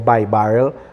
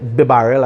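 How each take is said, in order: First: The first syllable sounds like 'buy'. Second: The first syllable sounds like 'bee'. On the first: "I hear by barrel" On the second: "I say B barrel"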